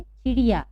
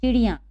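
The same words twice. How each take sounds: First: "चिड़िया" ending in an open oral "aa"; singular form. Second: "चिड़िया" ending in a nasal "aan"; nasalised plural. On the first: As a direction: say "चिड़िया" with no nasal on the end. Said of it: "एक होती है तो". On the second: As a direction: nasalise the last vowel of "चिड़िया", as "chidiyaan". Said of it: "उसके ऊपर अनुनासिक का चिन्ह लगाएंगे". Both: Shown as a demonstration.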